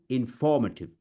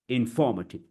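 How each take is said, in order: Both takes have the same delivery.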